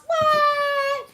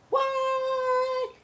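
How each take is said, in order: First: Much higher and louder stunned cry; shocked what. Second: A sudden stunned what at the news; shocked what. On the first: Reacting to the running-mate announcement, a much higher, louder yelp of shock. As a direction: yelp of disbelief, hit it hard. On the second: Hearing the running-mate pick, a much higher stunned cry. Imagining the VP announcement. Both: Acted.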